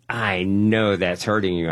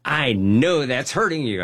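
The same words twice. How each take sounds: First: Said in the usual way. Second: Insistent nurse. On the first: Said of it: "She looks at me and says". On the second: Retold or imitated. The nurse repeats herself to him, insistent. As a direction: press it home the second time.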